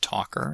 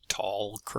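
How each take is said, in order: First: The word is said with no L sound. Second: The word is said with an L sound. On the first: The speaker calls it right. "despite the L in the spelling, no L in pronunciation" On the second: The speaker calls it wrong. "not talker, or some such thing"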